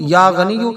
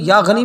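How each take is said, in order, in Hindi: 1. शब्द के अंत में एक 'u' स्वर है। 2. शब्द 'i' पर खत्म होता है, अंत में कोई स्वर नहीं है। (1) "या गनियु पढ़ना ये सबसे ज्यादा बेहतर है" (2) "इसको आप या गनी या गनी या गनी भी कह सकते हैं"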